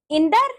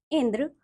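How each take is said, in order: First: "इंद्र" ending in -ar, "indar"; wrong pronunciation. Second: Said in the usual way. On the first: Shown as a demonstration. Teacher showing pupils the r error, "इंद्र" mispronounced as "indar". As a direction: say "इंद्र" as rising "in-dar". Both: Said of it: "र संबंधी अशुद्धियां".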